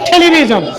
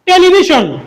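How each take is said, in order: First: The first t is aspirated, with a puff of air. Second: The first t is plain, without a puff of air. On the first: The speaker calls it right. "কিন্তু কি হবে?" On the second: The speaker calls it wrong. "আমরা পড়ছি আগে কি?"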